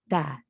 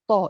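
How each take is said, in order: First: The syllable sounds light and open. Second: The syllable sounds heavy and darkened, like sod. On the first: The speaker calls it right. "lembut, istifal, infitah, terbuka, ta" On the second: The speaker calls it wrong. "dia bunyi tos ... terpengaruh dengan sod"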